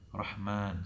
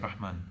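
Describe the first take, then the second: First: The vowel is prolonged and drawn out. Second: The vowel is said short, without lengthening. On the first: The speaker calls it right. "So he would prolong that" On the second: The speaker calls it wrong. "he wouldn't just say Rahman"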